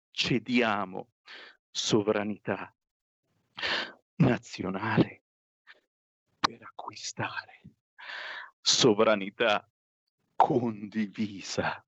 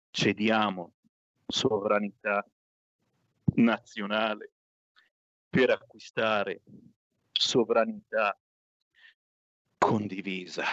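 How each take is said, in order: First: Slow, word by word with long pauses; pained, halting reading. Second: Pained, halting reading. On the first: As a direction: force out each word reluctantly. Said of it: "Non riesco a ripeterla questa frase". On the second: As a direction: drag each word out reluctantly. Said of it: "Non ce la faccio". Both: Acted.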